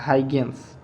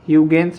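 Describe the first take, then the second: First: The name starts with a 'high' sound. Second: The name starts with a 'hew' sound. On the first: "ये हाइगेंस ने दिया था" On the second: "ह्यूगेंस भी उनको बोलते हैं"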